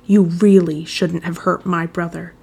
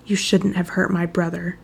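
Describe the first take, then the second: First: "really" drawn out slowly and leaned on; slow threat, weighting "really" heavily; stress on REALLY. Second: Said in the usual way. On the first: A narrator's reading. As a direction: press hard on "really", taking your time. Repeated threat with added emphasis.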